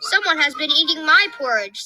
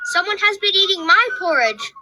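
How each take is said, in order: First: It is said in a medium-sized voice. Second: It is said in a tiny, small voice. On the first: "in her middle-sized voice" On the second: "cried the wee small baby bear in his wee small voice"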